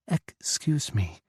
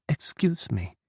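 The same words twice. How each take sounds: First: Put-on slow, lightly accented "Excuse me"; Czech-accented English. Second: Put-on accented English. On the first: Tipsy Czech woman repeats herself to Ethan, slow and accented. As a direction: stretch "Excuse me" with a Czech lilt. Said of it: "she said again". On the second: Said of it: "switching to accented English".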